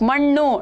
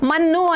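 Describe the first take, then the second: First: The nasal is made with the tongue curled back. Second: The nasal is made with the tongue at the teeth. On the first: The speaker calls it right. "ಮಣ್ಣು ಅಂತ ಹೇಳಿ ಬರಿಬೇಕು" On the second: The speaker calls it wrong. "ತ ತ ದ ಧ ನ ಬರೆದ್ರೆ ಅದು ಮಣ್ಣು ಆಗತ್ತಲ್ವಾ?"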